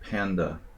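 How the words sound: The word is said with an English pronunciation. "In Hungarian, we don't say panda"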